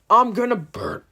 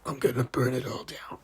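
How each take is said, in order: First: It is said in his normal voice. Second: It is said in a put-on Ghostface voice.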